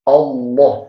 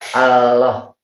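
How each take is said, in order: First: The L is heavy, pulled back toward an N. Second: The L is thin, made at the tongue tip. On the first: The speaker calls it right. "yang tepat itu adalah" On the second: The speaker calls it wrong. "Kalau lamnya ada di tempatnya, itu mengucapkannya gini"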